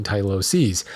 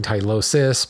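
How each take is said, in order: First: "tyloses" with a long final "seez"; plural pronunciation. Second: "tylosis" with a short final "sis"; singular pronunciation. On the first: Host sums up plural after singular, carefully pronounced. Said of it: "plural being tyloses". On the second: Host sums up singular versus plural, carefully pronounced. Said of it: "singular being tylosis". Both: Shown as a demonstration.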